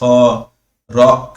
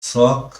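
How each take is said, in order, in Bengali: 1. শব্দটি ফ-এর পরে একটি বিরতি দিয়ে ভাগ করা হয়। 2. শব্দটি এক টানে, কোনো বিরতি ছাড়া উচ্চারিত হয়।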